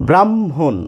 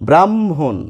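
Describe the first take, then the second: Both takes have the same delivery.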